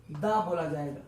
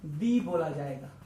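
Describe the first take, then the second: First: दा said as a short "dha"; dha pronunciation. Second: दी said as a long "dee"; dee pronunciation. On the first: शिक्षक "the" को "दा" बोलकर दिखाते हैं. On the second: शिक्षक "the" को "दी" बोलकर दिखाते हैं. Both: Shown as a demonstration.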